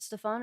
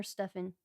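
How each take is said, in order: First: Stefan with a long "ah" in the last syllable; stress on second syllable. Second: Stefan with a short, reduced last syllable; stress on first syllable. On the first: Host checks a guest's name, Stefan said steh-FAHN. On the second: Host offers the other name option, Stefan said STEFF-en. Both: Shown as a demonstration. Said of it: "Or is it Stefan or Stefan?".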